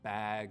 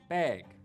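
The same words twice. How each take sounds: First: The vowel is low, open and front. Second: The vowel is raised with a tenser tongue. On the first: This is how most English accents say it. "in most accents of English, the vowel sound in words like" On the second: This is the Northern Cities Shift pronunciation. "pronounced with a little bit tenser tongue"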